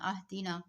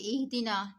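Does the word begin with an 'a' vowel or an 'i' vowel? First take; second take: a vowel; i vowel. First: The word begins with an 'a' vowel. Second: The word begins with an 'i' vowel. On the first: "जेर को जबर में बदल देना" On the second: "ये इहदीना"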